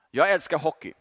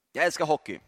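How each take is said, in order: First: Jag lifted, the rest falling away; stress on jag. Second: Älskar pressed hard, Jag light; stress on älskar. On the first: Preacher admitting his love of hockey, stress on Jag. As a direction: lean on Jag as a confession. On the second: Preacher insisting he loves hockey, stress on älskar. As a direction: lean into älskar with relish. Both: Shown as a demonstration.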